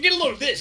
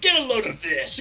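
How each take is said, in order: First: It is said quickly, rushed together. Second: It is said at a normal speed.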